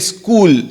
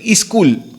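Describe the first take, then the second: First: The word starts directly with the s sound. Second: An extra i vowel comes before the s. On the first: "Like we don't say school" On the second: "in the Hindi side and all North Karnataka, say iskul"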